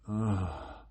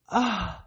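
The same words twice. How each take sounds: First: It is a low-pitched, grunting moan. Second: It is a high-pitched moan. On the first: It expresses pleasure from the lower, more animal centers. "it's like a grunt. That's lower tone" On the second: It expresses pleasure from the higher centers. "if you're in the higher levels"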